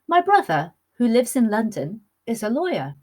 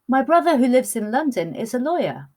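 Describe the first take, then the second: First: There are pauses before and after 'who lives in London'. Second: It is said without pauses around 'who lives in London'.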